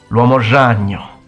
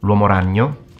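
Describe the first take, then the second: First: The r in ragno sounds like French j. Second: The r in ragno is a normal Italian r. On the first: A rural Sicilian speaker says it this way. "some Sicilians in the countryside will say" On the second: A typical Italian speaker says it this way. "So regular person might say"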